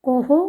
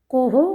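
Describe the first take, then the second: Both takes have the same delivery.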